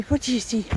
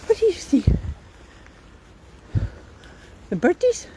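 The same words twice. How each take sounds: First: Said in the usual way. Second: High sing-song dog talk. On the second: Real, not acted. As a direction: owner asking her dog about the birds. Talking to the dog.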